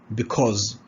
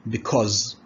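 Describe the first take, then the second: The two takes are said the same way.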